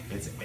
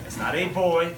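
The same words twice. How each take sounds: First: Put-on "boy" said like "buy"; "a boy" as "ay bye"; Newfoundland pronunciation. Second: Put-on "boy" with a standard oy vowel; "boy" with a rounded oy; wrong ending shown. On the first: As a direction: say "boy" to rhyme with eye. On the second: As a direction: say "boy" to rhyme with toy. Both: Shown as a demonstration. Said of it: "it's pronounced like buy, not boy".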